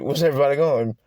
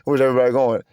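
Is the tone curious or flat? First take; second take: curious; flat. First: It sounds curious and lively. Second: It sounds flat and unexcited.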